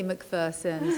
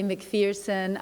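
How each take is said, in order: First: The name is said with a non-American pronunciation. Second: The name is said with an American pronunciation. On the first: This is how the name's owner says it. "I say McPherson" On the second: This is how Americans say it. "You say McPherson"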